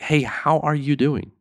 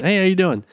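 First: It is a slow, caring, sincere question. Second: It is a quick, casual passing greeting.

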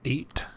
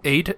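First: The T at the end of eight is clearly pronounced. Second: The T at the end of eight is dropped. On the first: It takes more effort to say. "you say the T in 8" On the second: It takes less effort to say. "I'm trying to save energy"

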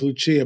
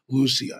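First: The name is said the common English way. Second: The name is said the Portuguese way. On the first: The speaker calls it wrong. "Most people know her as Lucia" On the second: The speaker calls it right. "the correct Portuguese pronunciation is Lucia"

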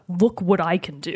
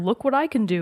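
First: It is said in a menacing, threatening tone. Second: It is said in a light, playful tone. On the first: It is a threat. "It was a threat" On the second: It is just showing off. "showing his power to Sean as like a, hey, here"

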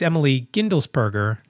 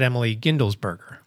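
First: The surname is said with a p sound. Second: The surname is said with a b sound. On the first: The speaker calls it right. "So it's Emily Gindelsberger" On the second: The speaker calls it wrong. "not Emily Gindelsberger"

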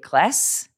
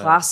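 First: It is said with an American short A. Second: It is said with an Australian long A.

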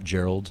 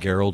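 First: The name starts with a soft G sound. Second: The name starts with a hard G sound. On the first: This is not how the speaker's name is said. The speaker calls it wrong. "not Gerald" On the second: This is the speaker's actual name. The speaker calls it right. "I have a hard G"

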